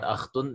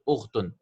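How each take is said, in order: First: The word begins with an 'a' vowel. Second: The word begins with a 'u' vowel. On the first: The speaker calls it wrong. "It's not akhtun" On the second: The speaker calls it right. "it is ukhtun. Sisters have a dhamma"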